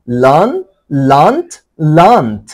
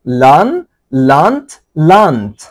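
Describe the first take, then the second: No difference in how they are said.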